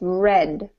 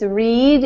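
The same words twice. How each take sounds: First: The vowel is short, rhyming with 'bed'. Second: The vowel is long, rhyming with 'seed'. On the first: The action happened in the past. "In the past tense it's read" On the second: The action happens now or habitually. "in present tense it's read"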